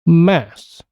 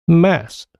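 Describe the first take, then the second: First: Only a single s sound ends the word. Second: The same.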